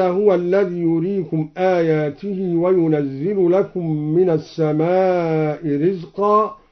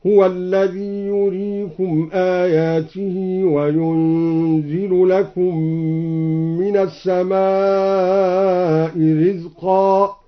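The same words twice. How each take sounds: First: Said in the usual way. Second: Slow drawn-out chant, وينزل said "wa-yunzilu" with single z; lightened yunzil. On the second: Shown as a demonstration. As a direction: recite وينزل as yunzilu, holding the nasal n. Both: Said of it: "قرأ بتخفيف ينزل هكذا".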